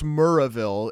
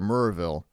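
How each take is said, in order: First: The syllables are kept apart, drawn out. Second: The syllables are slurred together into one. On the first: "you hang on that R a little bit" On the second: "you slur the two of them together"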